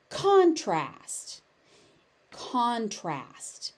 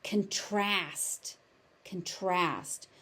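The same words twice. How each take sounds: First: "contrast" stressed on CON; noun stress. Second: "contrast" stressed on TRAST, reduced "con"; verb stress. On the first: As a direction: punch the first syllable of "contrast". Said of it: "As a noun, it is". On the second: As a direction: lean on the second syllable of "contrast". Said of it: "As a verb, it is". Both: Shown as a demonstration.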